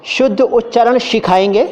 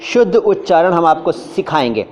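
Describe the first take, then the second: First: सिखाएंगे mispronounced with SH, like शुद्ध; over-eager hushing of every sibilant, rising end; overzealous SH. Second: शुद्ध with SH, सिखाएंगे with S; correct pronunciation. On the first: Acted. Over-enthusiastic learner promising pure speech, overzealous SH. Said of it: "कोई ज़्यादा जोश में आता है". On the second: Shown as a demonstration. Teacher modelling the right sentence, correct pronunciation. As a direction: keep शुद्ध hushed and सिखाएंगे sharp, measured. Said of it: "हमें बोलना चाहिए था".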